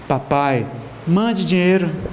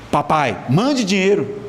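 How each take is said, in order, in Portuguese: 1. É dito em um tom terno e carinhoso. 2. É dito em um tom ríspido e exigente. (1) "o jeito de falar, o carinho" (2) "isso é jeito de se falar com o pai?"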